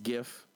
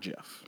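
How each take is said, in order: First: It begins with a hard G sound. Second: It begins with a soft J sound. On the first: The speaker calls it right. "So if gift is gift, then gif is gif" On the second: The speaker calls it wrong. "not jif"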